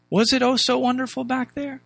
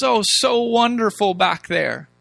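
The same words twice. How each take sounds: First: Higher, doubting rhetorical question; raised pitch, questioning the claim; sceptical question. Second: Drawn-out mock nostalgia, settling at the end; slow, put-on wistfulness; mock wistful. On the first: Real, not acted. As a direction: challenge the rosy memory, pointedly. Questioning that same rosy memory. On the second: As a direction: sigh over the good old days, mockingly. Mocking the people's rosy memory.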